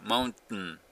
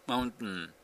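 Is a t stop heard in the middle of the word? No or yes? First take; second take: yes; yes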